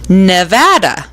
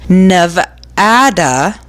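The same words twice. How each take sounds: First: The word is said with a local American pronunciation. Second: The word is said with a Spanish-style pronunciation. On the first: This is how people who live there say it. "Locals usually pronounce it Nevada" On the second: The speaker probably does not live there. "if you say the state's name with the Spanish pronunciation"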